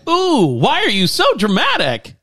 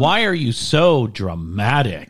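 First: It is said in a playful, affectionate tone. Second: It is said in a harsh, critical tone.

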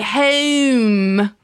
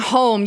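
First: The vowel is a drawn-out Baltimore-style O. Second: The vowel is a plain, standard O sound. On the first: "you'd say home" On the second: "instead of saying home"

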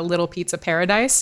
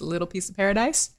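First: It is said in a plain, ordinary accent. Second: It is said in a strong Italian accent.

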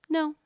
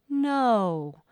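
First: A quick, light, precise no. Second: A light, soft, drawn-out no. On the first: "Or the dabbing no" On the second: "the floating no"

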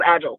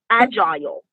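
First: The word is said with an American pronunciation. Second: The word is said with an Australian pronunciation. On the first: "in America is just agile" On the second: "I've been practicing how to say agile"

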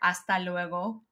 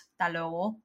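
First: The words are said in full. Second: The words are shortened and clipped.

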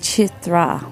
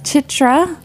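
First: The middle consonant sounds close to th. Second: The middle consonant is a plain t sound. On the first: The speaker calls it right. "it's really pronounced Chitra. almost like there's a TH in the middle" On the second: The speaker calls it wrong. "I've been mispronouncing her name, I think, as Chitra, which is how it's spelled"

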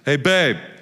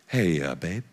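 First: It is said curtly and abruptly. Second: It is said gently and politely, with hesitation.

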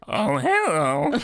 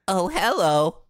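First: The voice is pitched deeper and lower. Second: The voice is pitched somewhat higher.

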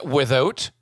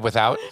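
First: The word is said in an imitated accent. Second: The word is said in a plain accent. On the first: "I love that accent" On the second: "instead of"

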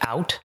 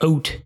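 First: The vowel sounds like ordinary American 'out'. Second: The vowel sounds close to the word 'oat'. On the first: "words like out" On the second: "Canadians, they say like words like out, like oat"

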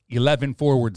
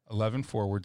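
First: The word forwards is carefully and clearly enunciated. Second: The word forwards is slurred and unclear. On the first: The speaker calls it right. "But now I will" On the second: The speaker calls it wrong. "I did not enunciate properly"

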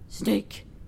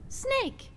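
First: The word is said in a harsh, unfriendly tone. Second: The word is said in a gentle, kind tone. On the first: The speaker calls it wrong. "don't say like" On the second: The speaker calls it right. "say it in a nicer tone"

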